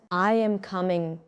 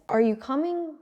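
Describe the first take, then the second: First: "I am coming" dropping on coming; statement fall on "coming"; falling intonation. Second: "Are you coming" climbing high on coming; yes-no question rise on "coming"; rising intonation. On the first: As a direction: let the pitch settle down at "coming". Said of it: "Voice goes down". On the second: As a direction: lift the pitch at the end of "coming". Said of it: "Voice goes up". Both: Shown as a demonstration.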